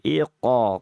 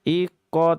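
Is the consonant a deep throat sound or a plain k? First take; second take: deep; plain k. First: The consonant is made deep in the throat. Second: The consonant is a plain front k. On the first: The speaker calls it right. "tapi iqo ... Lebih didalamkan lagi" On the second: The speaker calls it wrong. "Bukan iko"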